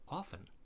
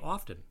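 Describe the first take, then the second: First: The T sound is silent. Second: The T sound is pronounced. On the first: This is the traditional pronunciation from speech. "This is why we don't pronounce ... the T in" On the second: This pronunciation follows the written letters. "it's called a spelling pronunciation"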